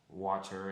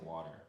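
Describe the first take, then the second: First: British accent, the middle t is cut off. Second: American accent, the middle t is flapped. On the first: "English people they don't really pronounce like T's ... break their words up in the middle" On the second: "you know we say water"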